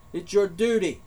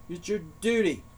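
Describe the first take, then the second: First: "your" hit hard, falling on "duty"; stress on your. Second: "duty" carries the weight, "your" left light; stress on duty. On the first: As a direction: punch "your" in "It's your duty". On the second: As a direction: lean on "duty" and let it fall. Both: Shown as a demonstration.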